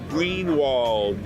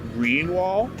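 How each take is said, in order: First: The final d sound is clearly pronounced. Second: The final d sound is left off. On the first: The speaker calls it right. "Tá ouvindo o D ao final de Greenwald? Porque existe" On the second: The speaker calls it wrong. "não é Greenwald"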